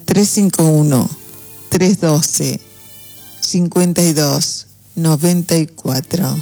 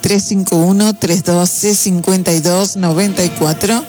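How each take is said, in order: First: The number is said at a slower pace. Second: The number is said at a faster pace.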